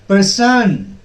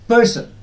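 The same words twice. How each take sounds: First: The stress is on the second syllable. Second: The stress is on the first syllable. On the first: The speaker calls it wrong. "It will not be pronounced as person. No, that will be wrong" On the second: The speaker calls it right. "This is how is this pronounced?"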